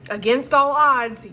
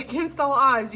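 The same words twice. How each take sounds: First: "against all odds" louder and slowed, each word leaned on; dramatic emphasis. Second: Said in the usual way. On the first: Shown as a demonstration. Reader telling the viewer they thrived, emphatic.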